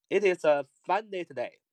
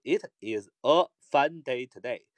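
First: Quicker, words run together; fluent connected speech; fast linked reading. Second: Slow, careful read of the sentence; deliberate unhurried reading. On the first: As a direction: link the words, read it faster. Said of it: "读快点，连读一点". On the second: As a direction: read it slowly, word by word. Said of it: "如果慢点读". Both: Shown as a demonstration.

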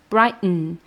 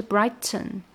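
First: "brighten" with T swallowed into a nasal; American flap-less brighten; glottal brighten. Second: "brighten" with a clear T; full brighten. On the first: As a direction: stop then hum through "brighten". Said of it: "停顿加一个嗯". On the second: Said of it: "它本来是brighten". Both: Shown as a demonstration.

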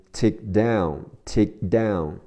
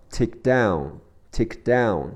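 First: Slow "Take down" with the k held but not sounded; k unreleased. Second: Said in the usual way. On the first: Shown as a demonstration. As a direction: stop the k of "Take" silently before "down". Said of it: "只做动作不发音". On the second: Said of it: "Take的科在听力中也会省去".

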